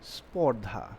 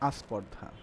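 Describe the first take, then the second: First: The word begins directly with the sp cluster. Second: The word begins with an added a vowel. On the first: "স্পর্ধা থেকে কি হলো" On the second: "উচ্চারণ হয়ে যায় আস্পর্ধা"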